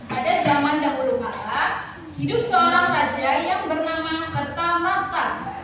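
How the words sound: It has a short pause after 'kala'. The speaker calls it right. "kalau koma itu kita berhenti sebentar lalu melanjutkan membaca"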